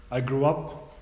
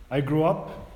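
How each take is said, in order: Both takes have the same delivery.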